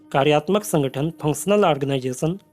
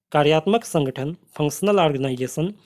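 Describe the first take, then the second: No difference in how they are said.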